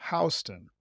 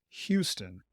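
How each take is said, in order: First: First syllable of "Houston" rhymes with "cow"; New York street pronunciation. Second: First syllable of "Houston" rhymes with "few"; Texas city pronunciation. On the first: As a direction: say "Houston" starting HOW, like "house-tun". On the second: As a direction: say "Houston" starting HYOO, like "hue-stun". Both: Shown as a demonstration. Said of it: "is pronounced Houston".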